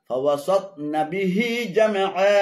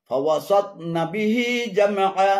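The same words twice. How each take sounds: Both takes have the same delivery.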